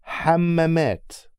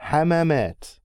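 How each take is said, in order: First: Hammamat with a long held double m; doubled m. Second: Hammamat with short single m sounds. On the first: Teacher contrasting words, Hammamat with long double m. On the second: Teacher contrasting words, Hammamat with short single m. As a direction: keep each m in Hammamat short. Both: Shown as a demonstration. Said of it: "listen to these two words".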